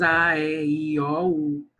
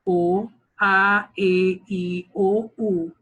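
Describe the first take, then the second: First: Put-on Rio accent, "a, e, i, o, u" with more open, drawn-out carioca vowels. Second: Put-on São Paulo accent, vowels "O, a, e, i, o, u" each crisp and closed, called out louder. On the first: Teacher imitating how Rio teachers recite vowels. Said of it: "Nas cariocas". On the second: Teacher imitating how a São Paulo teacher recites vowels, louder. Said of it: "paulista fala o".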